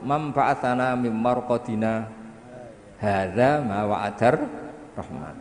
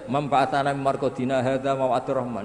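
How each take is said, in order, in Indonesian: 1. Ada jeda pendek sebelum hadza. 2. Dibaca terus tanpa jeda. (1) "Tapi barokah disaktah menjadi tahu" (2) "andai kan tidak disaktah, misalnya sampean waca gebut ae"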